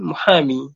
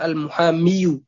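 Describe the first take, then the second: First: The word ends on a plain long i. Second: The word ends with an added -yu syllable. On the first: The speaker calls it right. "Dicukupkan dengan muhami" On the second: The speaker calls it wrong. "berat pengucapan al-muhamiyu"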